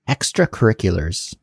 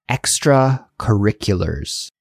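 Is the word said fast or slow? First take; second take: fast; slow. First: The word is said quickly at natural speed. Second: The word is said slowly, syllable by syllable. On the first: "And now at a fast speed" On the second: "let's slowly pronounce it"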